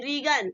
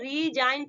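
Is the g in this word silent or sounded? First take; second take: sounded; silent. First: The g is pronounced as a hard sound. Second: The g is silent in the word. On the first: The speaker calls it wrong. "अभी इसे नहीं पढ़ेंगे" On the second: The speaker calls it right. "इसको हम क्या पढ़ेंगे, रीजाइन पढ़ेंगे"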